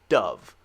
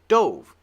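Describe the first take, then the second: First: The vowel is a short U sound. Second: The vowel is a long O sound. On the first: The bird. "This one is like a short U sound" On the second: The past tense of dive. "This one should be long"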